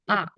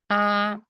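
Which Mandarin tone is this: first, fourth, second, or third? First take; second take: fourth; first. First: It is said with the fourth tone. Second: It is said with the first tone. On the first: "And the last one" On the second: "First one"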